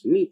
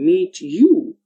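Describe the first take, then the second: First: The t and y merge into ch. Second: The t and y sounds stay separate. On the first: "when the sound t is joined or combined with the sound y, we get a new sound like ch" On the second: "the sound t is uh, influenced by the next sound y"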